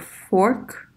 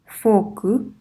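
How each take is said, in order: First: The word is said with an English accent. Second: The word is said with a Japanese accent. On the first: This is the original English word. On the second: This is the Japanese word used in Japan.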